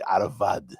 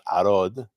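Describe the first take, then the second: First: The word is said as three syllables, 'a-ra-vad'. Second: The word is said as two syllables, 'a-rod'. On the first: The speaker calls it right. "it's probably Aravad" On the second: The speaker calls it wrong. "proper pronunciation is probably not Arod"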